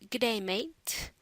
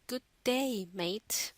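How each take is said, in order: First: It is said in a broad Australian accent. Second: It is said in a standard, non-Australian accent. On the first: "they greet you with" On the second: "instead of saying"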